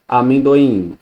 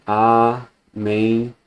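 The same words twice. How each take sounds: First: Said in the usual way. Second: "amendoim" slowly split as a-men-do-im; "amendoim" in four separate pieces, a, men, do, im; syllable by syllable. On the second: Shown as a demonstration. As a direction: pause after every syllable of "amendoim". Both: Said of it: "estão em sílabas diferentes".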